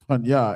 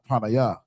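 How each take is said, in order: First: The word is said with two syllables. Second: The word is said with three syllables. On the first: The speaker calls it right. "we know to say, you know, panya" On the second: The speaker calls it wrong. "and not panaya"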